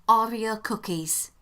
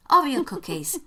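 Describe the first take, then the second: First: Said in the usual way. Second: "cookies" said with pointed emphasis; stress on COOKIES. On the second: Shown as a demonstration. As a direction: repeat it pointedly, leaning on "cookies". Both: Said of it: "Notice emphasis on the word cookies".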